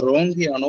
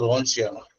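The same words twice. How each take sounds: First: "റോങ്" ending in a k sound plus vowel; hard K pronunciation. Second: "റോങ്" ending in a ch sound plus vowel; soft CH pronunciation. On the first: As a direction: say റോങ് as "RON-kai", with a hard k. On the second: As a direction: say റോങ് as "RON-chai", with a ch. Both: Shown as a demonstration. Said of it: "ഇതിന്റെ pronunciation പഠിക്കാൻ മതി".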